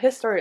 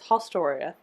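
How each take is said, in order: First: The first vowel sounds like 'i' in 'his'. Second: The first vowel sounds like 'o' in 'host'. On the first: The speaker calls it wrong. "I keep wanting to say Historia, but it's not Historia" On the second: The speaker calls it right. "It's Hostoria"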